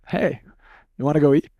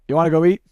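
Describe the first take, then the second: First: It is said warmly, with a smile. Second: It is said flatly, without enthusiasm.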